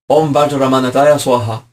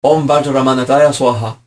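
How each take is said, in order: First: It is said with a Sanskrit pronunciation. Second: The same.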